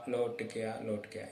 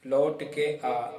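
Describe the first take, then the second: First: Softer, fading; softer repeat. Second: Slow spoken phrase; slow demo. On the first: Teacher repeating the line softer for the students. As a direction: let the phrase fade away. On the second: Teacher showing the line slowly to students. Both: Shown as a demonstration. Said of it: "ये देखो".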